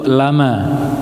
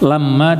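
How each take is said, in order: First: The m sound is single and short. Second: The m sound is doubled and held long. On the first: "yang dihilangkan tasydidnya, yaitu lama" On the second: "lamma ditasydidkan, ada tasydidnya"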